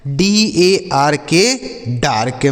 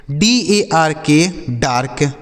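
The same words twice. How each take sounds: The two takes are said the same way.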